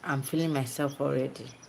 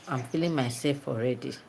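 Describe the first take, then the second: First: The pitch moves up and down across the phrase. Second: The pitch stays low and falls across the phrase. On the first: "But now I said" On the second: "Before I would have said"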